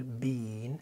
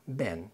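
First: "بين" with a drawn-out ee, like "bean"; long vowel. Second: "بان" said as a short, low "ben"; quick American "ben" for "بان"; light, quick vowel. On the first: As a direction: hold the ee in "بين". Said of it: "بتبقى طويلة شوية". (بين طويلة شوية) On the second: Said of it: "خفيفة سريعة". (بان خفيفة سريعة) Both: Shown as a demonstration.

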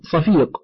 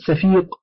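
First: صفيق opening on a heavy, emphatic ص; with sad. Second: سفيق opening on a light, plain س; with sin. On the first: Reader describing thick cloth, صفيق with emphatic sad. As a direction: say صفيق with a dark first consonant. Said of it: "بالصاد". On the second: Reader describing a brazen face, سفيق with plain sin. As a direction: say سفيق with a thin first s. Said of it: "بالسين". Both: Shown as a demonstration.

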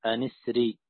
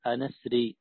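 First: أسري joined, nun with kasra, an-isri; أن أسري linked, nun gets an i; joined reading. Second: أن أسري with a cut hamza, asri; أسري said as asri after a cut hamza. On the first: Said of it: "وكسر النون لالتقاء الساكنين". (أن اسري بوصل وكسر النون) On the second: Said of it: "بهمزة قطع ووصل". (أسري بهمزة قطع) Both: Shown as a demonstration.

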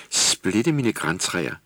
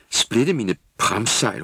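First: Put-on slow, drawn-out old salt exclamation; mock sailor's oath. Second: Slow, loud sailor's curse; shouted oath. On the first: Skipper elf staring at the reindeer, slow amazed oath. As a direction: marvel like a gruff old sailor. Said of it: "skipper's oath". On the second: Acted. Girl elf shouting a sailor's oath, loud and slow. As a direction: bellow it like an old salt. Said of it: "råbte Tulle".

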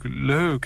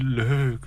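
First: High, fluttery second leuk; gushing leuk repeated. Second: Fluttery high leuk, falling; gushing leuk. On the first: Nina repeating her delight at the flowers, fluttery. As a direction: coo leuk once more. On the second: Nina cooing over the flowers, high and fluttery. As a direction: coo the word leuk sweetly. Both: Acted. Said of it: "ze vindt het op een wat moede manier allemaal zo gezellig".

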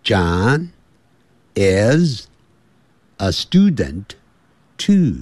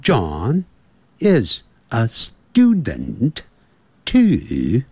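First: Slow American-accented model sentence; teacher's American accent, word by word with pauses; American accent for learners to repeat; American English. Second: Slow British-accented model sentence; teacher demonstrating a British accent, word by word; British accent, deliberately drawn out; British English. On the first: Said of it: "我们现在学的是美式". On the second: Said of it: "英式英语是". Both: Shown as a demonstration.

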